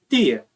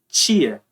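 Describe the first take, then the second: First: The first consonant is a plain 't'. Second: The first consonant sounds like 'ch'. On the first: "Tem gente que vai pronunciar tia" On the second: "ele pode ser pronunciado como che ou T. Eu pronuncio tia"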